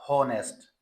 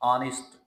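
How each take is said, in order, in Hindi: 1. यह शब्द h की आवाज़ से शुरू होता है। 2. यह शब्द स्वर से शुरू होता है, h नहीं है। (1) "नॉट ऑनेस्ट या होनेस्ट" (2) "इसमें हा साउंड तो है ही नहीं स्टार्ट में"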